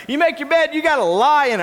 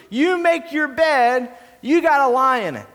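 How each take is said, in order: First: Proverb said loud and emphatic; emphatic quote. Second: Said in the usual way. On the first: Shown as a demonstration. Pastor corrects the congregation, emphatic. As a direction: hammer home the proverb. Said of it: "No, lie in it". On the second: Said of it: "You get what you deserve".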